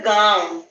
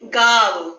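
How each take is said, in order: First: The vowel is said through the nose. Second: The vowel is said without nasal sound. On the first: "उसमें नाक से आवाज आ रही है ना थोड़ी" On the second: "इसका उच्चारण कैसे होगा?"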